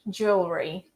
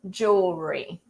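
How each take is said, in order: First: The vowel after the L is dropped. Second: The vowel after the L is dropped.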